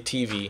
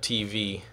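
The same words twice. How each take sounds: First: The stress is on the first letter. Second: The stress is on the second letter. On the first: "I stress the first letter typically" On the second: "instead of the second letter"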